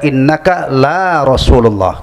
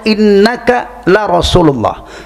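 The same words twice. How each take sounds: First: The vowel in 'la' is drawn out long. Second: The vowel in 'la' is kept short. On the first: It denies that he is God's messenger. The speaker calls it wrong. "Kamu bukan utusan Allah, gitu kan?" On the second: It affirms that he truly is God's messenger. The speaker calls it right. "Lam taukid itu bacanya pendek ya"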